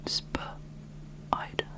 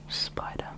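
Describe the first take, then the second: First: It starts with a buzzy, harder z sound. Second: It starts with a plain hissing s sound. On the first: "Make the um, S P a lot harder, or the Z P" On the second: "like the name of the animal"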